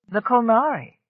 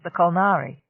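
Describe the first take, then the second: First: The Kolnari said louder, higher, with a falling tune; pointed interest. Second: Said in the usual way. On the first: Acted. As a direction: lean on The Kolnari as a telling clue. Enforcer repeats the name, intrigued.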